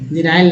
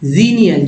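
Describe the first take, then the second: First: It has two syllables, ending like 'nail'. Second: It has three syllables, ending like 'nee-al'. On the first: The speaker calls it wrong. "जेनाइल नहीं" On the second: The speaker calls it right.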